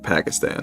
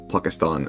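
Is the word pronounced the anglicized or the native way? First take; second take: anglicized; native. First: The word has an anglicized English pronunciation. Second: The word has its native-language pronunciation. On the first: The speaker calls it wrong. "and not Pakistan" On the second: The speaker calls it right. "all Pakistan"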